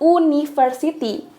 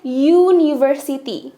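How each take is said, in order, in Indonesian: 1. Kata ini diawali dengan bunyi vokal biasa. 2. Kata ini diawali dengan bunyi y. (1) "bukan university" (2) "tapi kita bacanya university"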